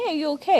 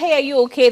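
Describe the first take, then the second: First: The question sounds sincere and caring. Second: The question sounds casual and offhand. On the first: The asker truly wants to know. The speaker calls it right. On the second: The asker invites only a shallow reply. The speaker calls it wrong.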